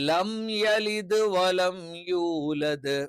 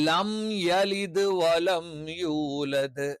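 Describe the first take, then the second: Both takes have the same delivery.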